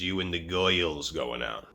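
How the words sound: It is said in a Brooklyn accent.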